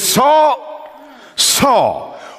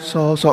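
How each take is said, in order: First: It is said with strong intensity. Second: It is said gently and kindly.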